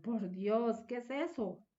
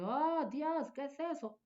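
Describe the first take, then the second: First: Shocked exclamation. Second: High, startled gasp of a question; shocked exclamation. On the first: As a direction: recoil from something awful. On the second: Woman reacts to something shocking, high and startled. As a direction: react as if you saw something awful. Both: Shown as a demonstration.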